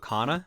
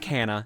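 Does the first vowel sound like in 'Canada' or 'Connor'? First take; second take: [name]; Canada. First: The first vowel sounds like in '[name]'. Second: The first vowel sounds like in 'Canada'. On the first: The speaker calls it right. "pronounced like my old name [name] ... That sounds right" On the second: The speaker calls it wrong. "I apologize if I instinctively say Kana, because I assume Canada is what makes me say that"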